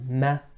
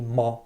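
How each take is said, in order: First: The letter sounds thin and light without echo. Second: The letter sounds thick and heavy with echo. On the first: The speaker calls it right. "We say ma" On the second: The speaker calls it wrong. "we don't say ma"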